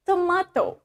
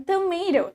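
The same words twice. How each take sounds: First: Tomato as tuh-MAH-toh, higher pitched; tomato with MAH in the middle and a clear t; Irish pronunciation. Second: Tomato as tuh-MAY-doh; tomato American-style, tuh-MAY-doh; not the Irish way. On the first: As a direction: say "tomato" with a broad ah. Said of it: "in Irish accent, kita bakal bilang". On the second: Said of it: "bukan tomato, tapi tomato". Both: Shown as a demonstration.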